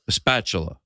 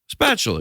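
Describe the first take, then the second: First: An extra 'uh' vowel comes before the word. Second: The word starts directly, with no extra vowel. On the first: The speaker calls it wrong. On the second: The speaker calls it right.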